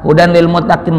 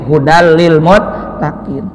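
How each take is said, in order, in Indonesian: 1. Bunyi n dibaca dengan jelas. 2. Bunyi n menyatu dengan l.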